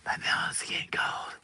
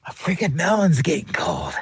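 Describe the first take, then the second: First: Breathy whispered repeat; secretive hushed whisper. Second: Said in the usual way. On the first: Shown as a demonstration. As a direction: drop to a whisper and say it again.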